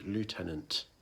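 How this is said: It is said with an American pronunciation. "the American version is lieutenant"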